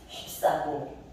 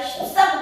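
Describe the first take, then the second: First: The word is said plainly and cleanly. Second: The word is said with heavy emphasis. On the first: The speaker calls it right. "그냥 휩싸고 봅니다. 깔끔하게" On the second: The speaker calls it wrong. "왠지 그래야 휩싸고 도는 것 같아"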